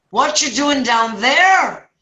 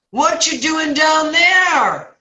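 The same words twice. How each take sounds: First: Lightly voiced priest, high and drawn out; slow, high call down as the priest; Father Murphy. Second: Very high, slow, loud holler; hammed-up long-vowelled call down; clueless passerby. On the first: Priest questions the man in the hole, lightly acted priest voice. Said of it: "it's Father Murphy". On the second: Passerby questions man in the hole, hammed-up drawn-out shout.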